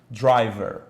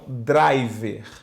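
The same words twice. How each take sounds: First: It is said with a more American accent. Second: It is said with a Portuguese-style accent.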